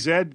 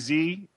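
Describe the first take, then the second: First: The letter is said the British way, zed. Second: The letter is said the American way, zee.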